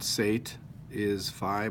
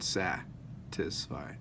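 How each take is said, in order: First: The first vowel is long. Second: The first vowel is short. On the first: The speaker calls it wrong. "Not sate is phi; it looks like a long say tis phi" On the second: The speaker calls it right. "but sat is phi"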